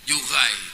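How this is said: The r is a throaty back sound.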